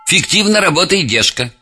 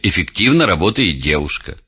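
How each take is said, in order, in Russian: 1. Первый гласный опускается, поэтому начинается с f. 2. Первый гласный чётко произносится перед f. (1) "На самом деле эффективно работает девушка" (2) "На самом деле"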